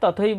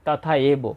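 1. এটি একটি জোড়া শব্দ হিসেবে বলা হয়। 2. এটি দুটি আলাদা শব্দে ভাগ করা হয়। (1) "আমরা তথৈবটাই বলবো" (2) "অনেকেই এটাকে ভেঙে বলে তথা এব"

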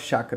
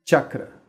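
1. A palavra começa com um som fricativo. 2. A palavra começa com uma oclusiva palatal. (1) "Muitas vezes a gente lê CHA quando a gente está vendo os textos de yoga e fala chakra, mas não tem chakra nenhum" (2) "Chakra é a pronúncia correta"

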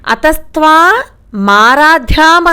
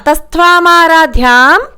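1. విరామం m శబ్దానికి ముందు ఉంటుంది. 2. ఈ మాటలు ఎలాంటి విరామం లేకుండా కలిసిపోతాయి. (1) "అతస్త్వా మారాధ్యాం అని చదువుతున్నారు. మారాధ్యాం కాదు" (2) "అలాగైనా చదవాలి"

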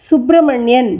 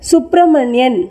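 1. h ஒலி m க்கு முன் வருகிறது. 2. h ஒலி m க்கு முன் வருகிறது.

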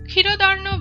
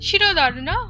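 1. শব্দটি ‘খ’ ধ্বনি দিয়ে শুরু হয়। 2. শব্দটি ‘শ’ ধ্বনি দিয়ে শুরু হয়। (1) "ক্ষীরদার্ণ বসম্ভূত না বলে" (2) "শিরদার্ণ বসম্ভূতা কথাটি বললাম"

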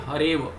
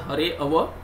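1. दोनों शब्द एक में मिल जाते हैं, अलग से कोई स्वर नहीं होता। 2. दूसरे शब्द का पहला स्वर अलग से बोला जाता है। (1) "The pronunciation is only hareva" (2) "it is not hareava"

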